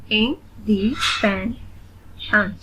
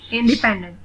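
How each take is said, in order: First: "इंडिपेंडेंट" slowly in four separate pieces; split into syllables. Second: Said in the usual way. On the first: Shown as a demonstration. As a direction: pause between the syllables of "इंडिपेंडेंट". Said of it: "split in the syllables". ("इंडिपेंडेंट" को रुक-रुककर syllables में) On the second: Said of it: "read the word".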